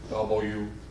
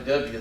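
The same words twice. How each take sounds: First: The letter is said in full standard form. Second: The letter is said in a clipped Southern way. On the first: The speaker calls it right. "You gotta say W" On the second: The speaker calls it wrong. "that means you're racist, ignorant Southerner"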